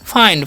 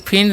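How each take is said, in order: First: The vowel is a long 'eye' sound. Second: The vowel is a short 'ih' sound. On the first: The speaker calls it right. "इसे हम लोग पढ़ते हैं फाइंड" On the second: The speaker calls it wrong. "इसे फिंड नहीं"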